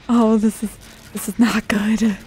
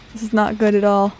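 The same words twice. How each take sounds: First: Whispering. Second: Said in the usual way. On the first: Real, not acted. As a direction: breathe it out, barely voiced. Hiding from the killer.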